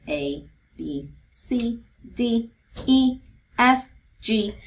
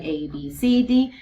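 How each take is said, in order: First: Letters spaced out with clear pauses; slow, deliberate alphabet recital; one letter at a time. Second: Letters run together without pauses; quick alphabet chant, losing track; singsong run-through. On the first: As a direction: recite each letter name separately, as if pointing along. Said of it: "really just tracking to make sure". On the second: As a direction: rattle off the letters like the alphabet song. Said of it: "kind of singing the song". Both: Shown as a demonstration.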